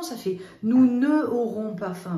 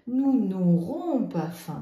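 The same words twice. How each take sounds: First: "nous ne aurons" with ne and aurons kept apart; wrong unelided form. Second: Slow, loud "Nous n'aurons pas faim"; teacher voice, slow and loud; slow model sentence. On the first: Teacher showing pupils the ugly wrong form. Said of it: "Parce que sinon". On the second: Teacher modelling the correct negative for pupils. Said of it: "je mets le N apostrophe". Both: Shown as a demonstration.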